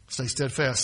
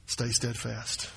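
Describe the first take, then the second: First: Said in the usual way. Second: Quiet reading. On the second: Shown as a demonstration.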